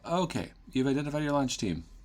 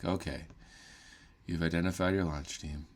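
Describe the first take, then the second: First: It is said with excitement. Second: It is said flatly, without excitement.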